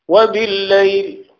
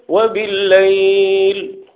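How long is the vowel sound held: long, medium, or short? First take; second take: short; medium. First: The vowel sound is held only briefly. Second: The vowel sound is held a moderate length.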